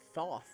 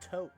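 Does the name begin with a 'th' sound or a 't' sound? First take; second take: th sound; t sound. First: The name begins with a 'th' sound. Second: The name begins with a plain 't' sound. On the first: The speaker calls it wrong. "is not pronounced Thoth" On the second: The speaker calls it right. "it's pronounced Tote"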